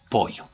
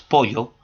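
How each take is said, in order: First: Pollo with the ll said as a plain y sound, like poyo; Lima pronunciation. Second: Pollo with the ll said as a lateral ly, like Italian gli; Ayacucho pronunciation. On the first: Teacher demonstrating how a Lima speaker says pollo, ll like y. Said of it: "una persona natural de Lima ... lo pronuncia". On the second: Teacher demonstrating how Ayacucho speakers say pollo, ll as ly. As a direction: say pollo the Andean way, ll as ly. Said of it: "acá en Ayacucho nosotros decimos pollo". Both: Shown as a demonstration.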